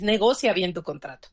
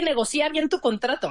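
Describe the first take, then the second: First: The stress in negocia falls on 'go'. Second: The stress in negocia falls on 'ci'. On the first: The speaker calls it right. "No, es negocia bien tu contrato" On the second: The speaker calls it wrong. "de ahí creo que nos confundimos"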